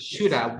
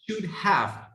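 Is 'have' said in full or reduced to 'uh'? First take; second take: reduced; full. First: Have is reduced to a weak uh sound. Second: Have is said in full with its v. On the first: The speaker calls it right. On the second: The speaker calls it wrong.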